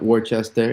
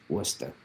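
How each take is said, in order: First: Worcester said the wrong way, every letter sounded as wor-chester; spelled-out Worcester. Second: "Worcester" said the local way as wuss-ter, two syllables. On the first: Streamer mocking chat's misreading, a spelled-out wor-chester. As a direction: read "Worcester" as it looks, wor-ches-ter. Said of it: "It's Worcester". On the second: Streamer teaching chat the local Massachusetts wuss-ter. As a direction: say "Worcester" as wuss-ter, no r-ch in the middle, and drop it low. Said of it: "It's not Worcester". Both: Shown as a demonstration.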